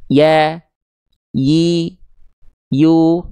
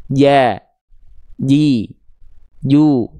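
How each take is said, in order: First: "Ya, yi, yu" one at a time, smooth y glide; letter ya drill. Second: "Ja, ji, ju" one at a time, hard j with tongue contact; letter jim drill. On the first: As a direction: model "Ya, yi, yu" slowly apart, tongue never touching. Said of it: "Kita lafalkan". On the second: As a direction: model "Ja, ji, ju" with pauses for repeating. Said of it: "Kita lafalkan bareng-bareng". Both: Shown as a demonstration.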